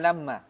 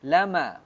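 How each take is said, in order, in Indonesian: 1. Bunyi m panjang dan ganda. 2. Bunyi m pendek dan tunggal. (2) "dibaca di sini dengan takhfif"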